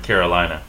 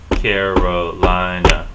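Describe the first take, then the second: First: Said in the usual way. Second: "Carolina" stretched into four slow, loud beats; slow, evenly beaten-out "Carolina"; syllable by syllable. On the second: Shown as a demonstration. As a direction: tap out each syllable of "Carolina". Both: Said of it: "tap it out on the table".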